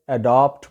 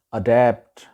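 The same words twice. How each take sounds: First: "اڈاپٹ" with long "aa": a-DAAPT; common mispronunciation. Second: "اڈیپٹ" with "a" as in cat; correct pronunciation. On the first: Teacher shows the usual wrong adapt, mispronounced. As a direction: say "اڈاپٹ" with an open back "aa". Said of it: "غلط تلفظ ہے". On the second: Teacher gives correct pronunciation of adapt, clear model. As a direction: say "اڈیپٹ" as "uh-DAPT". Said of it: "صحیح اس کا تلفظ ہے". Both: Shown as a demonstration.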